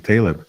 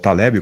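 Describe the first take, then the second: First: The name has a non-Portuguese pronunciation. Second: The name has a Portuguese pronunciation.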